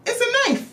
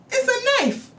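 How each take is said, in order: First: Shrieked way up high; high shrieked disbelief; squealed high. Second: Same high shriek on It's a knife; high shrieked disbelief; squealed high again. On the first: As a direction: squeal It's a knife in shock. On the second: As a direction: repeat it high and shocked. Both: Shown as a demonstration.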